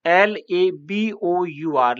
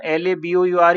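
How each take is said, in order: First: Letters spelled out slowly one by one; slow spelling. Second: Said in the usual way. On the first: Shown as a demonstration. (अक्षर धीरे-धीरे एक-एक करके बोलना) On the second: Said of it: "हम एल ए बी ओ यू आर ही कहेंगे".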